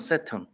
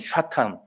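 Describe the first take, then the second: First: It begins with s, with a reduced second vowel. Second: It begins with sh, ending in tan. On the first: "영어로는" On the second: "히브리 말로는"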